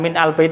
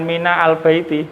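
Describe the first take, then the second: First: A closed min, then a separate al sound. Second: A full vowel, then a separate al sound. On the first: "bukan min al baiti" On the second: "bukan mina al baiti"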